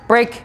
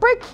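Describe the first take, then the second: First: The word is said in a normal voice. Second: The word is said in a high-pitched voice. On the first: Nothing has clearly changed. The speaker calls it wrong. "a lot of people will go break" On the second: The work session is entirely over. The speaker calls it right. "I high pitch voice inflection"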